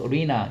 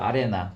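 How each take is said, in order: First: The second vowel sounds like 'ee'. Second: The second vowel sounds like 'eh'.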